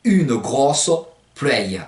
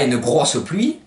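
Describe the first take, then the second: First: UNE GROSSE PLUIE with Provençal endings, "grosso plueio"; spaced-out une grosse pluie, pluie as "plu-èi-o"; Provençal pronunciation. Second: Said in the usual way. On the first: Shown as a demonstration. Teacher translating heavy rain, Provençal pronunciation. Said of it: "vous pouvez dire". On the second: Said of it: "Alors, pour dire".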